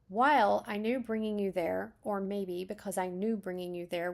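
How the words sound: The word while is stressed. "you have emphasis on while"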